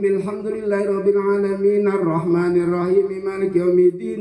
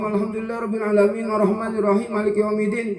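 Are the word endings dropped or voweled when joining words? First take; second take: voweled; dropped. First: Words run together with endings voiced with vowels. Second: Words run together but endings are cut silent. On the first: The speaker calls it right. "Kalau wasol-wasol hidupin tadi" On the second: The speaker calls it wrong. "kan wasol terus apa? Tapi mati. Salah juga"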